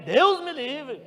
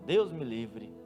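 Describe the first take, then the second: First: It is said with more fervor and energy. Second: It is said in a plain, calm way.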